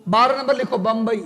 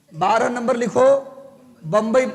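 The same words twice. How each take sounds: First: Said in the usual way. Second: Bombay से पहले ठहराव, फिर बम्बई पर ज़ोर; रुककर बम्बई को साफ़ बोलो; paused dictation. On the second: Shown as a demonstration. (Bombay पर ज़ोर देकर लिखवाना) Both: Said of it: "बारह नंबर बम्बई".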